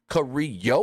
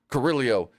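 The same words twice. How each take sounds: First: The double L is said as a Y sound. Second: The double L is said as an L sound. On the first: The speaker calls it right. "those L's are Y's" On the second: The speaker calls it wrong. "Booker just keeps calling him Carrillo"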